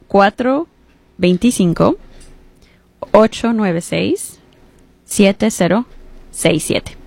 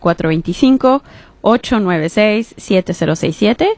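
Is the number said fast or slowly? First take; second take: slowly; fast. First: The number is said slowly. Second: The number is said fast.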